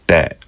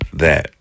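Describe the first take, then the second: First: The word starts with a hard d-like sound. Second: The word starts with a soft th sound. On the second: "in English we say that"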